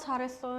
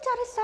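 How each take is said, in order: First: The praise is said in a flat, tired voice. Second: The praise is said in a bright, cheerful voice. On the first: The speaker feels unwell or in a bad mood. "제가 컨디션이 나쁘면 어, 아프거나 목이 아프거나 뭐 오늘 기분이 별로예요" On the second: The speaker is in a very good mood. "기분이 되게 좋아요 오늘"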